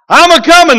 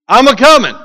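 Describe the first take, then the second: First: It is said loudly, with force. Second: It is said in a plain, calm voice.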